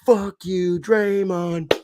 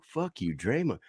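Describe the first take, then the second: First: Put-on high, loud drunken jeer; drunk fan yell. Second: Put-on high, softer childish echo; young sons repeating drunk fans, small and high; kids copying. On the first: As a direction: bellow it like a drunk Boston fan. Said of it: "the drunk ones start going". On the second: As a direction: parrot the swear innocently like a little kid. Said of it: "my seven and eleven-year-old are like".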